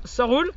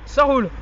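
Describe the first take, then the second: First: Said in the usual way. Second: Punchline Ça roule, said louder and falling. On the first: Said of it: "Quand quelqu'un vous dira". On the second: Shown as a demonstration. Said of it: "vous lui dites".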